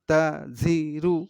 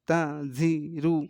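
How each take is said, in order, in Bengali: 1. প্রতিটি অংশ আলাদা করে, মাঝে থেমে থেমে পড়া হয়। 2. প্রতিটি অংশ আলাদা করে, মাঝে থেমে থেমে পড়া হয়।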